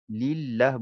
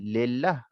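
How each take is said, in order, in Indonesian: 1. Suku kata pertama memiliki vokal 'i' yang tipis. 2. Suku kata pertama memiliki vokal yang tebal dan terbuka. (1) "lillah dibaca nipis dengan, uh, I" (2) "bukannya lillah"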